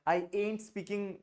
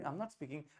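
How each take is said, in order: First: The words am not are contracted to ain't. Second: The words am not are said in full. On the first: The speaker calls it wrong. "हम avoid करते हैं generally ये वाला आई एंट" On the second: The speaker calls it right. "आपको अगर बोलना आई एम नॉट"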